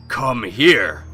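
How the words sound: It is said angrily and menacingly.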